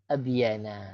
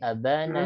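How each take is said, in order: First: A y sound is heard between the vowels. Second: No y sound is heard between the vowels. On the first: This is the underlying form following the pattern af'ala. "af'ala berarti ab abyana" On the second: This is the lightened form Arabs actually use.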